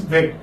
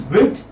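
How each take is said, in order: First: Second "wet" with an open short e; correct vowel. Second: First "wet" with a short i, like "wit"; wrong vowel. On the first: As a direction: say "wet" with a clear e, as in "bed". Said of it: "This is how it should be". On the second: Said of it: "This will be wrong". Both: Shown as a demonstration.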